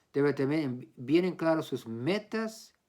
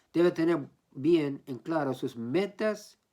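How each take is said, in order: The two takes are said the same way.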